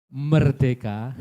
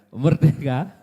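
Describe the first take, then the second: No difference in how they are said.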